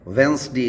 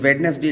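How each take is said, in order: First: The d sound is silent in the word. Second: The d sound is pronounced in the word. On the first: The speaker calls it right. "वेंसडे इसको बोला जाता है" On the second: The speaker calls it wrong. "ये वेडनेसडे नहीं होता है"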